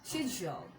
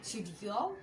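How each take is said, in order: First: It starts with a 'sh' sound, British style. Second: The same.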